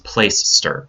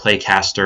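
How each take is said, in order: First: It sounds like playster, two short syllables. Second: It sounds like play-caster, with a k sound. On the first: The speaker calls it right. "It's Placester" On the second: The speaker calls it wrong. "or Playcaster or any of those other weird pronunciations"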